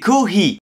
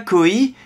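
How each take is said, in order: First: The h sound in the middle is pronounced. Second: The h sound in the middle is dropped. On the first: The speaker calls it right. "il faut bien prononcer le H" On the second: The speaker calls it wrong. "C'est pas koi"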